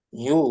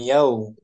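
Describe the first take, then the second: First: The syllable ends in a plain 'u' vowel. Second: The syllable ends in the diphthong 'au'. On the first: The speaker calls it right. "yu gitu" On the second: The speaker calls it wrong. "jangan yau"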